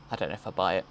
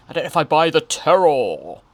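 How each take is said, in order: First: Said in the usual way. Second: Loud, higher, theatrical swell on "terror"; hammed-up proclamation. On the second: Host doubting the child's acting, hammed-up loud delivery. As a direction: play up "terror" with mock drama. Hams up the repeated line.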